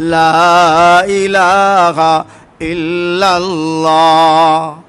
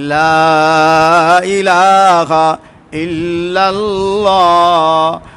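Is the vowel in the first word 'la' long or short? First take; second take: long; long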